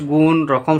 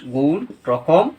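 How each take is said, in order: First: Said in the usual way. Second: গুণ, রকম said slowly and deliberately, word by word; teacher repeating the list at half speed; slow dictation. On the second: Shown as a demonstration. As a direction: spell out গুণ, রকম for students to copy. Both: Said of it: "কে বলেছি আমি?".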